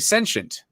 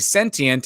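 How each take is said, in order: First: The word is said with an American pronunciation. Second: The word is said with a British pronunciation. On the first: "in America, we say sentient" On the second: "in England, they say sentient"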